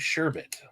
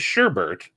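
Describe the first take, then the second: First: The second syllable has no r sound. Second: The second syllable has an r sound. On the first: This is the actual form of the word. The speaker calls it right. "but it's actually sherbet" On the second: This is how most people say it. The speaker calls it wrong. "Everybody ca- says sherbet"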